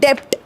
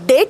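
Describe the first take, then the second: First: A b sound is heard before the t. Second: No b sound is heard before the t. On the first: The speaker calls it wrong. "ते डेप्ट नाही" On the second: The speaker calls it right. "डेट आहे. बी silent आहे तिथे"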